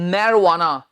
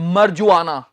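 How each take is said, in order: First: The middle consonant is a w sound. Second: The middle consonant is a j sound. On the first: The speaker calls it right. "इसका सही उच्चारण है मैरवाना" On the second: The speaker calls it wrong. "बहुत से लोग बोल देते हैं मरजुआना"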